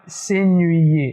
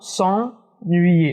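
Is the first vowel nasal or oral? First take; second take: oral; nasal. First: The first vowel is oral. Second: The first vowel is nasal. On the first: The speaker calls it wrong. "et pas s'ennuyer. Non" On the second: The speaker calls it right. "il y a un son euh, nasal. On dit en"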